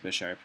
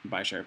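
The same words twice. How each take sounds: First: The name begins with the sound 'bish'. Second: The name begins with the sound 'bye'. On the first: The speaker calls it right. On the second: The speaker calls it wrong.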